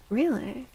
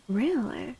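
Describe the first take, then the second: No difference in how they are said.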